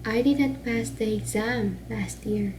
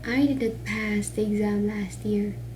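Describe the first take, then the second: First: The emphasis falls on the word exam. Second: The emphasis falls on the word pass. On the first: He may have passed a different exam. "diri daw ang accent or, or emphasis sa exam" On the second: He did something else with the exam. "If you put the accent or emphasis on the word pass"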